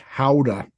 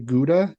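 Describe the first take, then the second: First: The word starts with a breathy h sound. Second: The word starts with a hard g sound. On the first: The speaker calls it right. "It's Howda" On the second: The speaker calls it wrong. "we say Gouda completely incorrectly"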